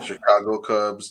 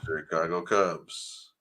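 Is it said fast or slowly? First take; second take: fast; slowly. First: It is said fast. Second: It is said slowly.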